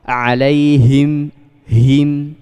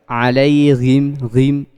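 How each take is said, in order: First: The h sounds breathy, from the deep throat. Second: The h sounds rasping, like a gh sound. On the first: The speaker calls it right. "yang benar alaihim. Nah, dikeluarkan dari aksol aksol halqi" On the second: The speaker calls it wrong. "ini yang salah ya, kurang tepat"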